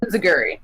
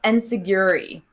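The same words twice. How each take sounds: First: "Inziguri" as in-zih-gur-ee, falling at the end; corrected pronunciation. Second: "Enzuigiri" said as en-sig-YOO-ree; unsure pronunciation. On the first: Host copying co-host's pronunciation, "Inziguri" as in-zih-gur-ee. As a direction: repeat "Inziguri" with a Z and no YOO glide. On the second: Fan guessing at a wrestling move's name, "Enzuigiri" as en-sig-YOO-ree. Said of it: "gonna say this wrong probably". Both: Shown as a demonstration.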